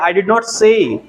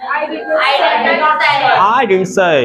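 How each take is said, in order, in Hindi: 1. 'did not' पूरा बोला जाता है। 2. 'did not' संक्षिप्त होकर 'didn't' बोला जाता है। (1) "हम बोलते हैं आई डिड नॉट से" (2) "ब्रिटिशर्स कैसे बोलते हैं"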